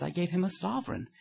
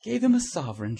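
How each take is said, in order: First: Said in the usual way. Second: Loud, high incredulous shout. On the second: A narrator's reading. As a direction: shout it back in disbelief. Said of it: "shouted Trevor".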